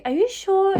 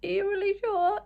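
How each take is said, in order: First: Higher, louder are you sure; checking the cashier means it; disbelieving. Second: Much higher, with stress on really; checking the cashier again; even more disbelieving. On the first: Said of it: "I was like". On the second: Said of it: "And I'm like". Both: Retold or imitated.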